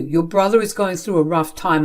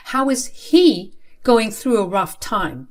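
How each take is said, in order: First: Said in the usual way. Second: Slow, mocking stress on "he"; incredulous echo. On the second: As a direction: throw his words back, leaning on "he". Daughter echoes father's words.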